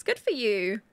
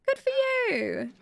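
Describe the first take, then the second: First: Said in the usual way. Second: Very high, drawn-out cooing; squeaky, stretched-out encouragement; cutesy cheer. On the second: Pretend. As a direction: coo it slowly in a high little voice.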